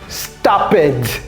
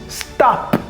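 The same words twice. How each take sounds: First: The word does not end in a t. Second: The word ends in a t sound. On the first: The speaker calls it wrong. "ou bien stopped que j'entends très souvent" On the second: The speaker calls it right. "avec une terminaison en t"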